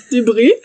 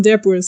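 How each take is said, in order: First: Said in the usual way. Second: Debris said as "DEB-ers", final s sounded; mispronounced word. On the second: Real, not acted. Narrator stumbles on debris in the story, sounding its final s.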